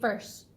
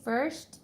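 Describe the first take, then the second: First: The final t sound is dropped. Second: The final t sound is clearly pronounced. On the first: This is the non-mainstream dialect form. "they won't pronounce that last sound" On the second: This is the mainstream English form. "instead of saying first"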